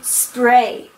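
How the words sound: Spray is said with an English pronunciation. The speaker calls it wrong.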